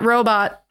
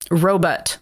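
First: The second syllable sounds like 'bot'. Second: The second syllable sounds like 'butt'. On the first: "Not robot" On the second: "Like R-O-W-B-U-T-T, robot"

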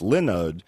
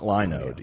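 First: The first syllable sounds like 'Lin' in Linux. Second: The first syllable does not sound like 'Lin'. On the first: The speaker calls it right. "it's Linode because they give you go there and you rent servers and they give you Linux" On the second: The speaker calls it wrong. "not Linode, even though it looks like Linode"

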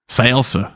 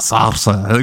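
First: The L is said plainly and quickly. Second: The L is exaggerated and drawn out. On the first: This is the ordinary, unaffected way to say it. The speaker calls it right. "just say salsa. It's fine" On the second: The speaker mocks a showy, affected pronunciation. The speaker calls it wrong. "You just roll the L for some reason"

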